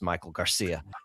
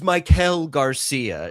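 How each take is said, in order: First: The name gets a plain, ordinary English pronunciation. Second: The name gets an exaggerated Spanish-style pronunciation. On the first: The speaker is saying the name casually and normally. The speaker calls it right. "instead of just being like, hey" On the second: The speaker is showing off an authentic-sounding pronunciation. The speaker calls it wrong. "trying to like overpronounce names of cultures that are not his own"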